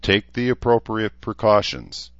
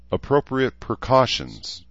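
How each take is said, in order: First: Said in the usual way. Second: Sighing repeat. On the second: Acted. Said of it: "Danae said with another sigh".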